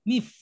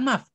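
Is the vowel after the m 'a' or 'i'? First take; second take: i; a. First: The vowel after the m is 'i'. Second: The vowel after the m is 'a'. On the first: The speaker calls it right. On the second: The speaker calls it wrong.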